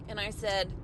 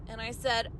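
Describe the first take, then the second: The two takes are said the same way.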